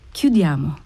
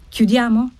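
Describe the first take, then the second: First: Lower, resigned agreement with a faint sigh; low, mildly sighed assent; slight sigh. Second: Higher-pitched impatient question; impatient husband's prompt. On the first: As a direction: agree on a light, understated sigh. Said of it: "con un lieve sospiro". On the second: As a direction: ask it impatiently, pitch lifted. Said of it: "disse il marito impaziente". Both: A narrator's reading.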